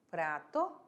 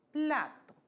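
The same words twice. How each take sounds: First: "Prato" with the Portuguese r, falling low; Portuguese side of the contrast; Portuguese word. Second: "plato" with a clear Spanish l, pitched up; Spanish side set against prato; Spanish word. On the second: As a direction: say "plato" higher, stressing the l. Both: Shown as a demonstration.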